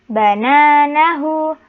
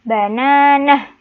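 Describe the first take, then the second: First: The word ends with a final u vowel. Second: The word ends in a silent h. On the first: This is how the word is written. "penulisan pertama bananahu" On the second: The word stands at the end of a verse. "karena terletak di akhir ayat jadi dibaca bananah"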